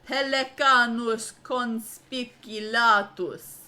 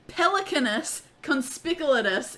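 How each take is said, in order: First: It is said in a put-on fancy voice. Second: It is said in a normal voice.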